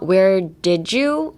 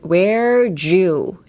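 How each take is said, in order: First: The D is pronounced separately before 'you'. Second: The D merges with 'you' into a J sound. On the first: The speaker calls it wrong. "Like not where did you? Or like don't try to pronounce the D" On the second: The speaker calls it right. "pronounce it as a J"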